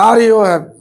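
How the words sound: The voice slows and drops at the end. "শেষে যে slow করে দেন"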